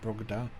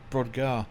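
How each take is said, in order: First: The g sound comes before the d. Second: The d sound comes before the g. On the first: The speaker calls it wrong. "not Brogdar" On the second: The speaker calls it right. "Brodgar, not Brogdar"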